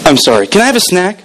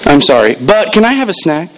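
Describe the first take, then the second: First: A breezy, faster take of the kid's fake apology; quick mock kid apology. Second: Mock kid apology. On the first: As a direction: rattle it off fast like a careless kid. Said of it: "I'll say that again". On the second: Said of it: "This is how the apology went. Ready?".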